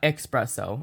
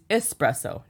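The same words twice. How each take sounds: First: The word begins with an 'ex' sound. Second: The word begins with an 'es' sound. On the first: The speaker calls it wrong. "not espresso. Unless you want to espresso yourself" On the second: The speaker calls it right. "it's espresso"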